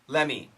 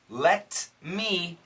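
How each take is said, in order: First: It is said fast with no T sound. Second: It is said slowly with the T sound.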